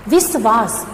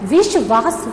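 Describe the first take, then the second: First: विश्वास said with s, विस्वास; wrong pronunciation. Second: विश्वास said with sh, विश्वास; correct pronunciation. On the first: Teacher to students, showing the wrong s in विश्वास. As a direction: show विश्वास with a plain s. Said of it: "ये गलत है". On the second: Teacher to students, modelling the sh in विश्वास. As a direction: say विश्वास with a clear sh sound. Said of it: "सही उच्चारण होगा". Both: Shown as a demonstration.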